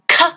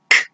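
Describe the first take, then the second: First: The consonant is followed by an uh vowel. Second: The consonant ends cleanly with no vowel. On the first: The speaker calls it wrong. "It's not k" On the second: The speaker calls it right. "it's k"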